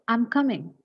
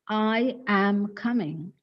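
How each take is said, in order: First: I and am are run together into I'm. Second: I and am are said as full stressed words. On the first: "And the next one is" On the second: "The first style is"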